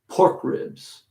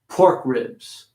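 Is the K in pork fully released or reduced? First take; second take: reduced; reduced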